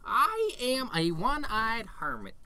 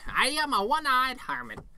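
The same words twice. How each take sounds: First: It is said calmly and quietly. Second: It is said loudly and angrily.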